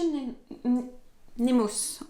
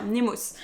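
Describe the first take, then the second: First: Nemos broken into halting Ne-, Ne- restarts before the full word; stumbling over the name. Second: Said in the usual way. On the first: Real, not acted. Stumbling over the publisher's name Nemos, halting restarts. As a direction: trip on the first syllable of Nemos twice, then land it. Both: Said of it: "C'est dur à dire".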